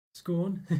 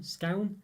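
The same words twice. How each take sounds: First: "scorn" with an or vowel and a rolled r; scorn pronunciation. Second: "scown" said with an ow vowel, rhyming with town; scown pronunciation. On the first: Running through the ways viewers say it, scorn pronunciation. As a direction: say "scorn" the Scottish way, like corn. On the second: Running through the ways viewers say it, scown pronunciation. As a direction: say "scown" like clown. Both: Shown as a demonstration. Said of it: "Scone, scone".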